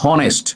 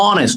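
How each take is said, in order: First: The word starts with an audible h sound. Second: The word starts with a vowel, h silent. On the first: The speaker calls it wrong. "Not হনেস্ট" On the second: The speaker calls it right. "অনেস্ট উচ্চারণটা অ হয়েছে"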